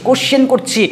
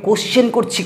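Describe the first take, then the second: Both takes have the same delivery.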